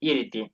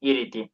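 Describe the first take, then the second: Both takes have the same delivery.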